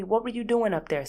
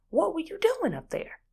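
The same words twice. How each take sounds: First: Said in the usual way. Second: Much higher, stretched doing; incredulous high question. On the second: Shown as a demonstration. Demanding answer from husband, pitched high in disbelief.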